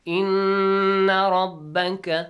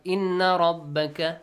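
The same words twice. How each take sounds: First: "Inna" with a loud, slow, drawn-out nasal nn; nasal stretched noon. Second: Said in the usual way. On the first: Shown as a demonstration. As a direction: hold the nn in "Inna" as a long nasal hum for two counts. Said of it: "stretch the sound". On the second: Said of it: "not inna rabbaka".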